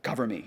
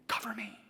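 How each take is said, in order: First: Low, half-voiced repeat of the plea; voiced distressed plea. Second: Breathless whispered plea, barely audible; distressed whisper. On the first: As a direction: say it aloud now, a hint of distress. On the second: Retold or imitated. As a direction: whisper it like a frightened man begging his wife. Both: In his distress.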